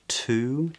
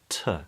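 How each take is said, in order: First: It is said with a full vowel. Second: It is said with a weak schwa. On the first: "a word like to" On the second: "is often pronounced as t"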